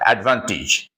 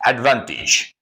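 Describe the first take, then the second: First: The final syllable has a soft, weak vowel. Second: The same.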